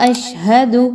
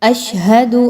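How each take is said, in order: Both takes have the same delivery.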